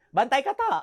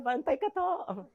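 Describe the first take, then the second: First: Light Ilonggo singsong; mild Ilonggo lilt; Ilonggo warning. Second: Slow, soft Ilonggo singsong warning; slow smiling Ilonggo warning; sweet Ilonggo threat. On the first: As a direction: tease the threat Ilonggo style. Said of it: "Binawarningan ka na". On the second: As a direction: smile while you threaten, Ilonggo lilt. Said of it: "mapatay na nakangiti". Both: Retold or imitated.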